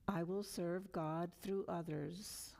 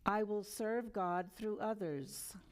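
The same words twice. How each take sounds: First: It is said in a normal voice. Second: It is said with much energy.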